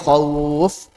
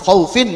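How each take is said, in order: First: The word ends on a bare final consonant. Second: The word ends with a full -in vowel ending. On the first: The reader stops on this word. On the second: The reading continues without stopping.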